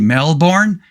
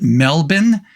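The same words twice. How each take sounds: First: It is said the way tourists say it. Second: It is said the way Australian locals say it. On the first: The speaker is a visitor. The speaker calls it wrong. "You don't say Melbourne. If you say Melbourne, you're a tourist" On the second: The speaker is from Australia. The speaker calls it right. "if you're from Australia, at least I was told, you pronounce it Melbourne"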